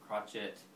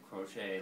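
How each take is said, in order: First: The ending is pronounced like 'et'. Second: The ending is pronounced like 'ay'. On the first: The speaker calls it wrong. "It's not crotchet" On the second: The speaker calls it right. "The et is a uh, makes an a sound"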